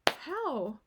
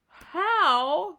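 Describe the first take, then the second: First: The word is said in a calm, ordinary way. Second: The word is said in a strongly surprised way. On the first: A simple question about the way. "how you do it or how" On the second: The speaker is astonished and cannot believe it. "if you're like really like, how, like what? You might go, how, like this"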